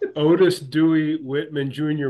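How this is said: The name is said in an English accent.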